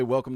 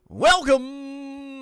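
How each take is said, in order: First: It is said in a plain, normal voice. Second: It is said in an exaggerated, put-on voice. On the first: "I'm going to say welcome to the Talking Balls Network" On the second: "I can't say welcome in a normal voice"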